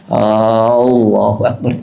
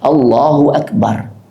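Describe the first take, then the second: First: The opening vowel is drawn out long. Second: The opening vowel is kept short. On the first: It asks whether God is the greatest. The speaker calls it wrong. "A-nya dipanjangin" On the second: It firmly affirms that God is the greatest. The speaker calls it right. "seharusnya kan penegasan"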